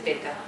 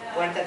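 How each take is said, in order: First: The first syllable has a plain 'e' vowel. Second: The first syllable has the diphthong 'ue'. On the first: The speaker calls it wrong. "la reducción de diptongos" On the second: The speaker calls it right. "en vez de puerta"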